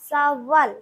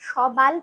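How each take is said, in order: First: The middle consonant is a w sound. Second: The middle consonant is a b sound. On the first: The speaker calls it right. "সাওয়াল সাওয়াল" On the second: The speaker calls it wrong. "উচ্চারণটা আমরা কিন্তু সবাল করছি না"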